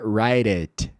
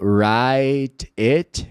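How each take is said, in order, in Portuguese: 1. O t vira um tepe rápido, como um flap. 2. O t é um t claro, com o som bem solto.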